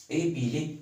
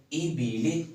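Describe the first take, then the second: No difference in how they are said.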